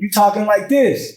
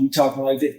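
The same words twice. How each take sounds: First: The voice is raised and loud. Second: The voice is casual and relaxed. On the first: Calling to a child across the room. "It's like when your kid is across the room" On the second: Talking casually with a friend. "When you when you with a homie"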